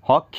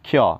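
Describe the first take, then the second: First: It starts with an added h sound. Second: It starts directly with the k sound. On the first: The speaker calls it wrong. "বহুতে কি কৰে হক্ষ কয়" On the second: The speaker calls it right. "এটো হল আমাৰ ক্ষ"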